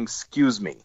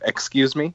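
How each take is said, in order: First: The first syllable of excuse is dropped. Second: The first syllable of excuse is kept. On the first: The speaker calls it wrong. "I catch myself saying" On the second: The speaker calls it right. "It takes a whole other syllable"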